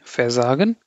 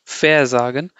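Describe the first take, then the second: First: Versagen in one piece, stress on SA; unstressed prefix. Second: VER leaned on and set apart from sagen; wrongly stressed prefix. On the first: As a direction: let ver pass lightly into SAgen. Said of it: "I'm not emphasizing the prefix". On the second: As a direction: counterexample versagen with emphasis on VER. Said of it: "Okay, I'm not saying". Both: Shown as a demonstration.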